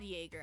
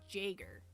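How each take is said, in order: First: The word begins with a Y sound. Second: The word begins with a J sound. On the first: The speaker calls it right. "Am I saying that right?" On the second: The speaker calls it wrong. "I know it doesn't make the J sound. It's not Jaeger"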